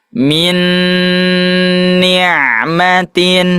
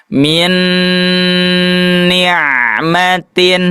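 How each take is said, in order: Both takes have the same delivery.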